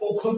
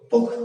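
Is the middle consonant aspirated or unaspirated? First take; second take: aspirated; unaspirated. First: The middle consonant is aspirated, a breathy kh. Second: The middle consonant is unaspirated, a plain k. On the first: This is the original form of the word. "খ থেকে ক হয়েছে, এটি মহাপ্রাণ থেকে অল্প প্রাণী হয়েছে" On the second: This is the changed, current form of the word. "অল্প প্রাণী ভবন"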